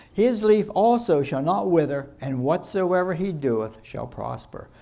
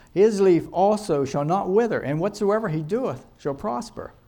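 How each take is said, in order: Both takes have the same delivery.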